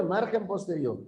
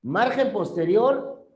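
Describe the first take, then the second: First: Said in the usual way. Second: "Margen posterior" said higher and louder with a rising end; stressed repeat for a confused student. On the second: Shown as a demonstration. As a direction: hammer home "Margen posterior" with a lift at the end. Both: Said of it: "¿Qué se agarra?".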